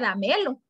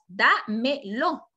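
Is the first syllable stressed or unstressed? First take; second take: unstressed; stressed. First: The first syllable is left unstressed. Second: The first syllable carries the stress. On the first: The speaker calls it wrong. "porque si no dice dámelo, y ya la regamos" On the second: The speaker calls it right. "la mayor fuerza de voz está en da"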